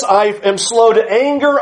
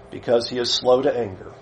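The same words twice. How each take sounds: First: Said in the usual way. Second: Soft, low and reverent; a devout whisper-soft line; hushed reverent. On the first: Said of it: "God says". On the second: Acted. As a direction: murmur it like a prayer. Quiet reading of the passage.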